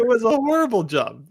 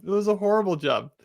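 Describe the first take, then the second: First: High, louder, amused outrage; a lively pitched-up jab; emphatic agreement. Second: Said in the usual way. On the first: Real, not acted. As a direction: pile on the mockery. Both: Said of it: "Horrible Photoshop on his hair".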